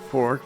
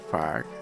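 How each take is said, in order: First: The vowel sounds like 'or'. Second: The vowel sounds like 'ar'. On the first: "instead of fork" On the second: "we'll say fark"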